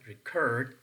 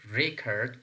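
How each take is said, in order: First: "record" stressed on CORD; re-CORD, the verb form of "record"; stress on second syllable. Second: "record" stressed on REC; REC-ord, the noun form of "record"; stress on first syllable. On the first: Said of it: "is functioning as a verb". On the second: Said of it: "is functioning as a noun". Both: Shown as a demonstration.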